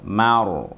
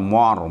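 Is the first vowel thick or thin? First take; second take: thin; thick. First: The first vowel sounds light and open. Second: The first vowel sounds dark and rounded. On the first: The speaker calls it right. "Ma-nya tipis" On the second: The speaker calls it wrong. "bukan mor"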